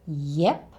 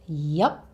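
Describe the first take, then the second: First: The vowel is the e sound of egg. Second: The vowel is the u sound of up. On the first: "you can say yep with an e sound like egg" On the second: "you can say it with an up sound"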